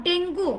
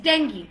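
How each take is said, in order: First: "ডেঙ্গু" with a drawn-out "goo"; wrong pronunciation. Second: "ডেঙ্গি" as DENG-ghee; "ডেঙ্গি" with silent u, "ee" ending; corrected pronunciation. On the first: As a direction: say ডেঙ্গু as den-GOO, u sounded. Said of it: "not ডেঙ্গু". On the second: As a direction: say ডেঙ্গি falling on a short "ghee". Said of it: "it's ডেঙ্গি". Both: Shown as a demonstration.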